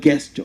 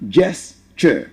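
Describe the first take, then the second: First: The word starts with a hard g sound. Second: The word starts with a soft j sound. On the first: The speaker calls it wrong. "I say it's not guess, it's not gesture" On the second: The speaker calls it right. "it turns into a j and it becomes jess"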